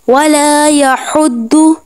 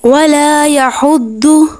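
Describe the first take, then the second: The two takes are said the same way.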